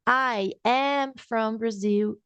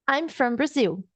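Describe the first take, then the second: First: 'I am' is said as two full words. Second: 'I am' is contracted into one syllable. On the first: "ao invés de eu falar I am from Brazil" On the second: "eu vou abreviar"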